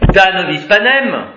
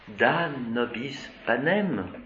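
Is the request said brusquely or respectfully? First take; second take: brusquely; respectfully. First: The request sounds brusque and disrespectful. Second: The request sounds polite and respectful. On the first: The speaker offends the one being addressed. The speaker calls it wrong. "si on lui dit comme ça, hey, da nobis panem, eh bien, nous, on nourrit le lion" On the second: The speaker addresses the listener properly. The speaker calls it right. "c'est dans le ton de la voix"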